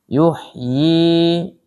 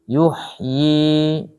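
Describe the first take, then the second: Both takes have the same delivery.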